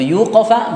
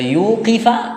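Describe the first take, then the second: First: The second vowel is an a sound. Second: The second vowel is an i sound. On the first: The one who stops him is not named. "berarti dia diberhentikan, namanya majhul" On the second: The one who stops him is named. "dia oleh Allah diberhentikan"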